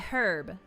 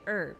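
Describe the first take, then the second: First: The word begins with a clear H sound. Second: The word begins with a vowel, no H sound. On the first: This is how it is not said in America. "We don't say the H. We don't say herb" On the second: This is how it is said in America. "We say herb"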